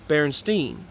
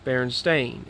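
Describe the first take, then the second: First: The last syllable sounds like 'steen'. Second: The last syllable sounds like 'stain'. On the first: This is how the name looked in writing. "I remembered seeing it" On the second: This is how the name was said aloud. "and yet hearing it"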